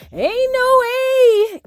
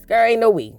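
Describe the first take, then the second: First: Slow, much higher, stretched-out no way; drawn-out refusal. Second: Said in the usual way. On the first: Shown as a demonstration. Refusing to forgive the attacker, slow, high and stretched. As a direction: stretch every word in disbelief.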